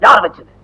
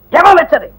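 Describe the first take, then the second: First: Low, controlled angry question; stern demand. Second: High-pitched furious demand; angry yelling. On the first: Teacher asking the class who did it, stern and low. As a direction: demand the culprit in a lowered pitch. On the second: Teacher demanding who did it, voice raised in anger. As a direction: yell for the culprit. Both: Acted. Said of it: "ஏன் sir சும்மா கத்துறீங்க".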